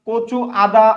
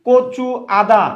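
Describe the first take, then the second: No difference in how they are said.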